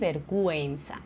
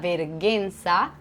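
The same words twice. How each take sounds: First: The u after the g is pronounced. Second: The u after the g is silent. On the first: The speaker calls it right. "on dit" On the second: The speaker calls it wrong. "on ne dit pas"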